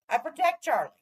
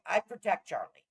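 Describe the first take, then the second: First: Emphatic vow. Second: Said in the usual way. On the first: Real, not acted. Repeated vow, louder.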